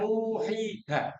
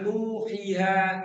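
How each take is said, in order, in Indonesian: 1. Semua vokal panjang dibaca panjang. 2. Vokal i dibaca pendek. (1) "Nah, itu bisa" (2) "ya salah juga. Di sini ada ya yang berhakat harus dibaca panjang"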